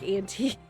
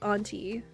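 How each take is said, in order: First: The first syllable sounds like 'ant'. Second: The first syllable does not sound like 'ant'. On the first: The speaker calls it wrong. "Not like auntie, not like antifreeze" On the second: The speaker calls it right. "You like auntie"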